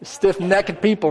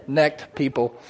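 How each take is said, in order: First: "necked" as two syllables, NECK-ed, in a country twang; higher, slow country twang on "necked". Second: Said in the usual way. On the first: Real, not acted. Preacher sticking with his favored word, country twang. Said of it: "That little accent, country twang".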